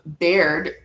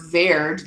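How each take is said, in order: First: The name begins with a b sound. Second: The name begins with a v sound.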